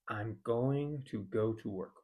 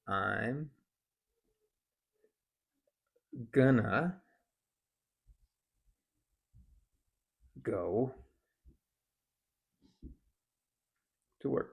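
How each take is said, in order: First: It uses "I'm" and a full "going to". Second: "Going to" is reduced to "gonna" with a schwa. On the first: "instead of saying" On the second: "we can reduce it to"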